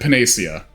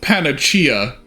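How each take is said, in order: First: The middle consonant sounds like an s. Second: The middle consonant sounds like a ch. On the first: This is how the speaker usually says it. "I've always said Panacea" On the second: This is how the game's English dub says it. "they pronounce it Panacea in that"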